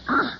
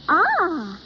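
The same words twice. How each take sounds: First: It sounds disgusted. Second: It sounds pleased.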